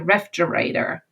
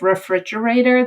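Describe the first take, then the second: First: One syllable of the word is left out. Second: Every syllable of the word is pronounced. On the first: "they may leave out a syllable" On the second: "instead of refrigerator"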